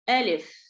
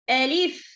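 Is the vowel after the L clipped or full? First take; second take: clipped; full. First: The vowel after the L is clipped short. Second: The vowel after the L is full. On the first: The speaker calls it wrong. "Don't read it Alif" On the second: The speaker calls it right. "Complete the Kasra for lam"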